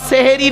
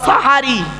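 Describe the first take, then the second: First: The first vowel is an e sound. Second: The first vowel is an a sound. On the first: The speaker calls it wrong. "শব্দটা সেহেরি নয়" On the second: The speaker calls it right. "শব্দটা সাহারি"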